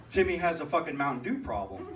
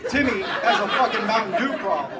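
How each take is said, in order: First: Said in the usual way. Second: Much louder, hammering the punchline; loud comic proclamation; emphatic repeat. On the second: Real, not acted. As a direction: shout it out to the crowd.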